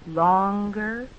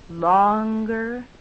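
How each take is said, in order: Both takes have the same delivery.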